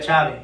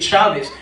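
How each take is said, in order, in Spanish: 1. El acento está en la segunda sílaba. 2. El acento está en la primera sílaba. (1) "como raro se escucha" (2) "esa rayita para decir Chávez, en la A"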